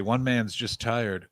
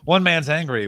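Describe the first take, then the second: First: Slow, low and soft, drained; tired voice. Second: Said in the usual way. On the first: Shown as a demonstration. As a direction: sag into exhausted mumble.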